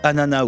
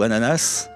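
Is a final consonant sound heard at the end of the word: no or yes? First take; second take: no; yes. First: The word ends without a final s sound. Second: The word ends with a final s sound. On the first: "avec ou sans consonne finale" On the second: "avec ou sans consonne finale"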